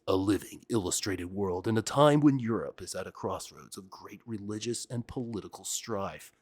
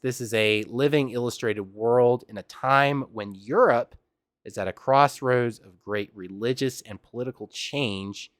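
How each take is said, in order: First: It is read in a deep movie-trailer voice. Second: It is read in a plain, normal voice.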